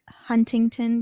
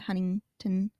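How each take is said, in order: First: The T sounds are clearly pronounced. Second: The T sounds are dropped entirely.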